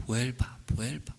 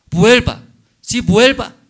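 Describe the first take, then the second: First: Quiet, gentle calling back; soft plea. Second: Sudden loud, high cry of come back; loud plea. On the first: Husband softly asking his wife to return, quiet plea. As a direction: murmur it tenderly, almost to yourself. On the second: Husband crying out to his wife to return, loud plea. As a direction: burst out with the plea. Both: Acted.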